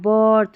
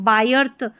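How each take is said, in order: First: The vowel sounds like er. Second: The vowel sounds like eye. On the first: The speaker calls it right. "यहाँ पर आई को हम अ पढ़ेंगे" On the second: The speaker calls it wrong. "इसको बायर्थ या बिर्थ नहीं पढ़ेंगे"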